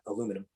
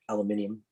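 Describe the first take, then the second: First: It is said the American way, aluminum. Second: It is said the European way, aluminium.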